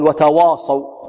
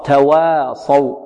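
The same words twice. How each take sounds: First: وتواصوا with a heavy, thick waw; wrong heavy waw. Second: تواصوا slowly, with a light waw; correct light waw. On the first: Teacher imitating a student's error, heavy waw. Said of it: "البعض ربما يفخم الواو يقول". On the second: Teacher correcting the student, light waw. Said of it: "خطأ". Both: Shown as a demonstration.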